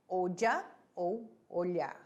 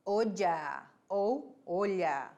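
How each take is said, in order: First: Said in the usual way. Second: "olla" said slowly with a dj sound, then "olha" with lh; two pronunciations. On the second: Shown as a demonstration. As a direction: contrast "olla" as o-dja and "olha" as o-lya, slowly. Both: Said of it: "Em espanhol".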